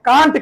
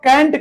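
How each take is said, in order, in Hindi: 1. स्वर 'car' वाले जैसा लगता है। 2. स्वर 'cat' वाले जैसा लगता है। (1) "जब आप कांट कहते हैं" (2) "जब आप कैंट कहते हैं"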